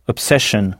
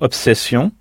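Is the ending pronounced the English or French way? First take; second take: English; French. First: The ending sounds like 'shun', English style. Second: The ending sounds like 'see-on', French style. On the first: "et 2-S-I-O-N, shun" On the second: "la terminaison 2-S-I-O-N, sion"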